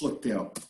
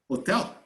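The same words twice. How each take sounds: First: The word begins with an audible h sound. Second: The word begins without any h sound. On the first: "they don't pronounce hotel" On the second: "They say hotel"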